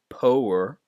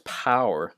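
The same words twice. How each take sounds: First: The vowel is a plain 'o' sound. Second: The vowel is the 'ow' sound. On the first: The speaker calls it wrong. "not the o sound" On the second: The speaker calls it right. "It's pow"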